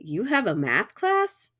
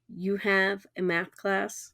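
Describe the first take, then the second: First: The voice rises at the end. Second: The voice falls at the end. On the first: It asks a yes or no question. "I raise my voice at the end" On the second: It states a fact. "I'm making a statement"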